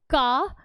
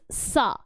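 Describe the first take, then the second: First: It begins with a hard k sound. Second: It begins with a soft s sound. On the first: The speaker calls it wrong. "This is not ka" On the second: The speaker calls it right. "but this is sa"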